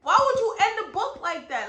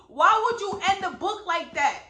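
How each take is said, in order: First: Even higher, louder repeat of the complaint; mad at the book. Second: Raised, louder exasperated question; venting real frustration at the author; mad at the book. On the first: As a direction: push the outrage up a notch on would. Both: Real, not acted. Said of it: "I'm still so mad".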